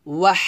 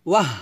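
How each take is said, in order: First: "ওয়াহ" with a long, airy h at the end; breathy final h. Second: "ওয়াহ" quick, with hardly any h; the mistaken "ওয়াহ", its final breath cut short. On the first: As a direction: say "ওয়াহ" as "wahhh", letting the breath run on. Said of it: "এভাবে". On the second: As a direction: say "ওয়াহ" as a short falling "wah". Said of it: "এটা না কিন্তু". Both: Shown as a demonstration.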